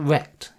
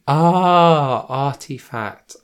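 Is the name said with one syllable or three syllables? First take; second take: one; three. First: The name is said as one short syllable. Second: The name is said with three syllables. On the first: The speaker calls it wrong. "do you pronounce it rect? Is that how I meant to say it? Maybe not" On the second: The speaker calls it right. "Yeah, artifact"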